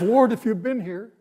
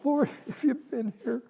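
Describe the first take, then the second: First: It sounds questioning, like Martha's demanding tone. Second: It sounds grief-stricken, like Mary's broken tone.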